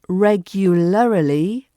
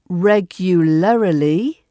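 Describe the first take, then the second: No difference in how they are said.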